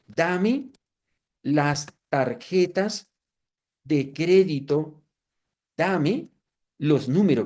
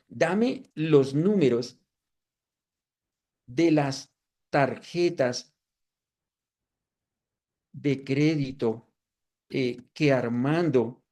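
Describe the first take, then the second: First: Slow, deliberate, word by word like typing; reading out a command slowly; slow dictation. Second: Slow, careful, spelling out each phrase; unhurried spoken prompt; slow dictation. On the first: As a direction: dictate each word slowly as you type it. Dictating a prompt to the AI. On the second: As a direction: dictate it slowly as you type. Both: Shown as a demonstration.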